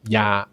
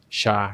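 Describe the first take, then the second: First: It starts with a y sound, Mexican style. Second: It starts with a sh sound, Argentinian style. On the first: "if you are choosing a more Mexican version" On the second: "Or the Argentinian ver- version"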